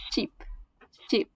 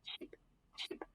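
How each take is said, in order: First: Sheep with a long drawn ee; long ee vowel. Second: Sheep with a short clipped i, whispered; short i vowel. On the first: Student demoing the long vowel to parents, long ee. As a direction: stretch the ee in Sheep. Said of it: "This is a sound longer". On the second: Student contrasting with the long vowel, short i whispered. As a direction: say Sheep short and soft like ship. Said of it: "This is a sound shorter". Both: Shown as a demonstration.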